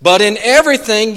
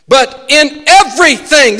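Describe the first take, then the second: First: Said in the usual way. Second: "everything" preached louder and higher; emphatic preacher's "everything"; stress on everything. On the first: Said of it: "the absolute of both of those". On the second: Shown as a demonstration. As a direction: drive home "everything", leave nothing out. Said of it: "that means leaving nothing out".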